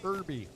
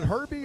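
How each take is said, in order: First: The word starts with a vowel, no H. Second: The word starts with a clear H sound. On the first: "others you don't" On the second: "Herbie with an H"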